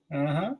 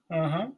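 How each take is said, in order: Both takes have the same delivery.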